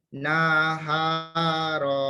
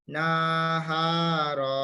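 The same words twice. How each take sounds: Both takes have the same delivery.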